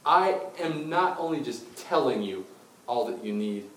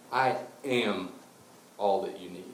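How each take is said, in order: First: "telling" leaned on as the lesser thing; stress on telling. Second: "am" held firmly, then a pause; stress on am. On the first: Jesus contrasting words with himself, stress on "telling". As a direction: slowly punch "telling", then ease off. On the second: Jesus declaring he himself is enough, stress on "am". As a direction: land on "am", then finish lower. Contrasts telling with being. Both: Acted.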